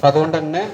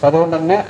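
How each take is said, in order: No difference in how they are said.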